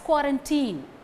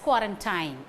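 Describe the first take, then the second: First: It is said the way English news channels say it. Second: It is said the way Tamil news channels say it. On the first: "in English channels as quarantine" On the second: "You would have come across this word in Tamil channels as quarantine"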